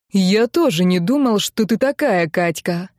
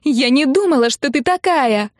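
First: Restrained reproach near the usual pitch; understated disappointment; disappointed. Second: High, loud accusation; hysterical, raised-pitch reproach; angry wailing. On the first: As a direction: say it as a let-down uncle. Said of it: "вздохнул он". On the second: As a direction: cry it out as if betrayed. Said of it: "ещё громче завопила сестра". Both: A narrator's reading.

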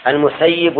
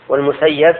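First: المسيب pronounced al-Musayyib, ending in "-yib"; al-Musayyib, the doer form of المسيب; active-form kasra. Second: والمسيب pronounced wal-Musayyab, ending in "-yab"; wal-Musayyab, the passive form of والمسيب; passive-form fatha. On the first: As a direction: say المسيب with "i" after the doubled y. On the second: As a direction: say والمسيب with "a" after the doubled y. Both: Shown as a demonstration. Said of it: "وبينهما فرق".

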